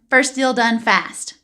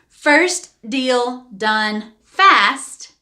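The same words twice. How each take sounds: First: The name is said at normal quick speed. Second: The name is said slowly.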